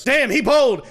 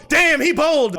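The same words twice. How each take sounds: First: Loud, high hyped shout; hyped yell. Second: Even louder, high hyped shout; hyped yell. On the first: Streamer hyped by the butler's confession, loud. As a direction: yell it in delight. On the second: Streamer shouting at the confession, loud. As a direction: hit damn hard in delight. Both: Real, not acted.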